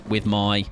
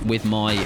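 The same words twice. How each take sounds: The two takes are said the same way.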